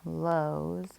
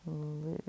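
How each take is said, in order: First: The vowel is a long 'oh' sound. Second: The vowel is a long 'ooh' sound. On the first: The speaker calls it wrong. "you would think it is lows. That's not our word" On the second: The speaker calls it right. "this does have kind of that ooh sound"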